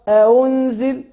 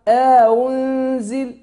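First: No vowel is inserted between the hamzas. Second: A lengthened vowel is inserted between the hamzas. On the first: "تقرأ ورش أنزل ما يعملش إدخال" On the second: "لما تقرأ قالون تقولك أنزل"

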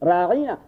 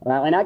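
First: The middle vowel is drawn out long. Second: The middle vowel is short. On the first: It turns the word into an insult, calling someone a herdsman. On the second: Please pay some regard to us too.

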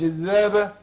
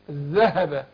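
First: The h sound is weak and barely heard. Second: The h sound is pronounced clearly and fully. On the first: The speaker calls it wrong. "مش الذهب" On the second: The speaker calls it right. "شفت الهاء انا باكد عليها"

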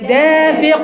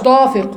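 First: The first consonant is a light plain d. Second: The first consonant is a heavy emphatic d. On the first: The speaker calls it right. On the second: The speaker calls it wrong. "مش ضافق"

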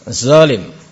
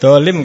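First: The word begins with a buzzing z sound. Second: The word begins with a hard d sound. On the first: "orang Jakarta biasa dha ... ini keliru" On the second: "Kalau orang Jawa di sini bilangnya dolim"

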